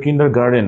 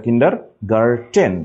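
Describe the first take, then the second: First: "কিন্ডারগার্টেন" said as kinder-garden; mispronounced with D. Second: "কিন্ডারগার্টেন" slow, ending in a clear -ten; pronounced with T. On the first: Teacher showing the common mistake, "কিন্ডারগার্টেন" ending in -den. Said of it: "এটা কিন্তু কিন্ডারগার্টেন না". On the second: Teacher correcting class, "কিন্ডারগার্টেন" slowly with -ten. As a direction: break off a crisp T in "কিন্ডারগার্টেন". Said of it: "German শব্দ". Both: Shown as a demonstration.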